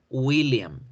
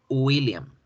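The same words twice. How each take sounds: The two takes are said the same way.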